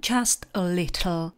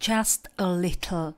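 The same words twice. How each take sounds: The two takes are said the same way.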